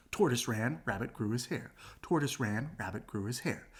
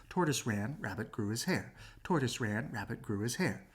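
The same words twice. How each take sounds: The two takes are said the same way.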